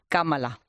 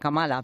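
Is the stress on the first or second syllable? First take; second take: first; second. First: The stress is on the first syllable. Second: The stress is on the second syllable. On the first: The speaker calls it right. "ya sabes, Daniel, Kamala" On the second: The speaker calls it wrong. "en España todos decimos ya Kamala"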